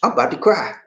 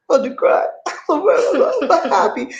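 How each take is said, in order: First: Said in the usual way. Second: High, choked-up happy voice breaking into laughter; about to cry. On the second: Real, not acted. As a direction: squeak it out between tears and laughs.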